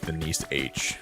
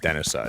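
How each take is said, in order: First: The name ends with a separate spoken letter. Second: The name ends with an added 'uh' vowel. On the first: The speaker calls it right. "it's Denise H" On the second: The speaker calls it wrong. "it's not Denisa"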